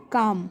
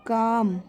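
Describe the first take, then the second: First: Said in the usual way. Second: "काम" with the long aa held, no l sound; teacher slowly drawing out "काम"; drawn-out pronunciation. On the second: Shown as a demonstration. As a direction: stretch the vowel in "काम" into the final m. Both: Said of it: "जब मैं pronounce करती हूँ".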